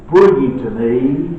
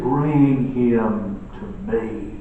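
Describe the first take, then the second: First: Put-on firm, loud call to bring the boy; commanding. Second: Tender. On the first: Jesus ordering the boy brought to him, loud and firm. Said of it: "Jesus says". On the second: Retold or imitated. Compassionate Jesus asking for the boy, slow and tender. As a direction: Bring drawn out slowly and gently. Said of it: "shows his tenderness".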